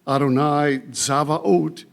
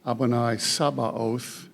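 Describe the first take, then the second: First: The last word starts with z and has v. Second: The last word starts with s and has b. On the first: "That's Zavaot in Hebrew" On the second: "Sometimes this is pronounced Adonai Sabaoth"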